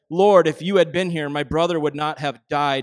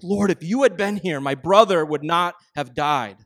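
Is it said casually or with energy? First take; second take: casually; with energy. First: It is said casually and flatly. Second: It is said with emotional energy.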